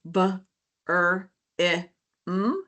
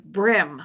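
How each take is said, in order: First: "b, er, i, m" as isolated sounds with pauses; separate sounds. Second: Said in the usual way. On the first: Shown as a demonstration. Teacher modelling a four sound word, "b, er, i, m" sound by sound. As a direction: sound out "b, er, i, m" one at a time. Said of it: "say each individual sound". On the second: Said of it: "blend those sounds together".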